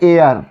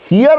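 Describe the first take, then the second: First: The word starts with a vowel, no h. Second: The word starts with a sounded h. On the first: The speaker calls it right. "लेकिन इसको पढ़ते हैं एयर" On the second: The speaker calls it wrong. "हियर लोग पढ़ते हैं"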